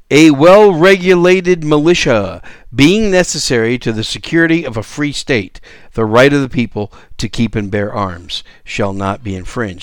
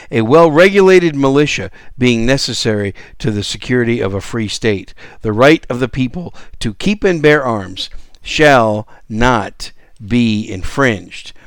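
First: Said in the usual way. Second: "not be infringed." slowed right down and weighted word by word; stress on the last words. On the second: Shown as a demonstration. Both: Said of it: "And I emphasize those last words".

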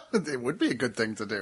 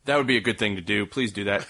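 First: Low, deadpan echo; odd mock-serious tone. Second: Odd mock-serious tone. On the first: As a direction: repeat it flatly back. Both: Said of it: "I don't know why we're talking like this".

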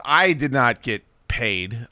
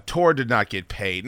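First: "I did not get paid" slowed, each word laid down; slow deliberate emphasis. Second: "Tor did not get paid" slowed, weight on "Tor"; dry, deliberate repetition; slow deliberate emphasis. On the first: Telling listeners about the unpaid event, slow dry emphasis. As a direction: spell out "did not" slowly and dryly. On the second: Listing who went unpaid, slow dry emphasis. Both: Real, not acted. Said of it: "No one got paid except Monk".

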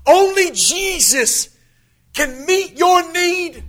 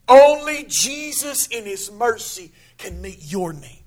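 First: "Only Jesus" slow and higher, leaning on "Only"; emphatic repeat. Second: Said in the usual way. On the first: Shown as a demonstration. Preacher repeating his point to the church, slow higher emphasis. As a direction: stretch out "Only Jesus can meet your need", each word weighted. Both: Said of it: "repeated with more weight".

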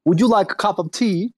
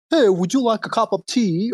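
First: Hammed-up British accent, pitched up; mock British gentleman offering tea; bad British accent. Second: A mock posh British accent, pitched up; bad English accent. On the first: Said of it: "your British accent is fucking horrible". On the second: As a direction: play a hammy English gentleman offering tea. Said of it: "your, your, British accent".

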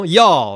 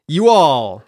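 First: "y'all," merged into one Texan syllable, loud; Texas y'all. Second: Said in the usual way. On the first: Shown as a demonstration. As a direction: slur "y'all," together the Texas way. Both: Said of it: "that's how they say it".

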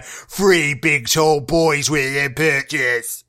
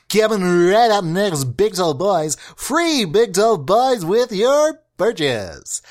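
First: Low, slow announcer growl; deep voice. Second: Slow, drawn-out announcer read; hammed-up announcer voice. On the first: Acted. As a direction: drop it way down and stretch each word. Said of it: "this one down here". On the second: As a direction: sell it like a radio promo. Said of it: "do that announcer voice".

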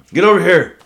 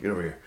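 First: Loud high barked order; mock drill instructor shout. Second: Said in the usual way. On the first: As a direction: yell it like a drill instructor calling a recruit. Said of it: "And so". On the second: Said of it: "we're like".

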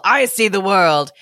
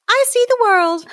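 First: Put-on bull character. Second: High-pitched kitty character; cat voice. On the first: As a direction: say it as a storybook bull. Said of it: "said the bull". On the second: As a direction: squeak it out like a little cat. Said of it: "said the green-eyed cat". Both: A narrator's reading.

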